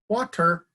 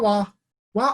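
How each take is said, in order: First: The word is pronounced fully and clearly. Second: The word comes out as repeated babbled syllables. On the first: This is the clear request that earns better reinforcement. "to water, to the adult form" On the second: This is an early, unclear attempt at the request. "shaping a response from wah-wah"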